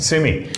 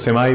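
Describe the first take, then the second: First: The word ends with an 'ee' sound. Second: The word ends with an 'eye' sound.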